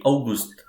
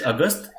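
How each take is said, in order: First: August said OW-goost, German style; German pronunciation. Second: August said as AW-gust, the English month; English pronunciation. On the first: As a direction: say August with an "ow" start and an "oo" in the ending. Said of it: "in German". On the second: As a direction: say August the English way, with a short unstressed ending. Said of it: "in English". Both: Shown as a demonstration.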